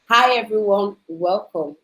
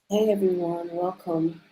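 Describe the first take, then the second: First: The greeting sounds lively and bubbly. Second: The greeting sounds flat and serious. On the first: This is a cheerful, outgoing personality. "that's my personality coming through" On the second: This is a reserved, serious personality. "that is the personality of some people, but I'm not like that"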